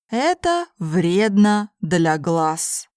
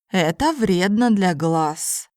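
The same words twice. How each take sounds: First: It is spoken slowly and carefully. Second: It is spoken at a normal conversational pace. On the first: "first in slow Russian" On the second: "then in normal speed Russian"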